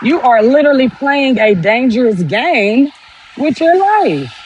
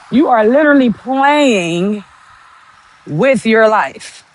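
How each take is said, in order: First: Said in the usual way. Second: Slow, every word weighed, "literally" lifted; slowed-down emphatic "with your life"; slow emphatic repeat. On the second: Real, not acted. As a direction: spell it out slowly so it lands. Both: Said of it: "repeats the line slower".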